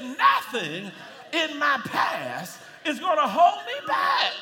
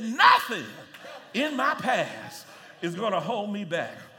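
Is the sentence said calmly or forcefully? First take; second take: forcefully; calmly. First: It is said with strong, forceful conviction. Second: It is said in a plain, calm way. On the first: "like it means it" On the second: "say it with me"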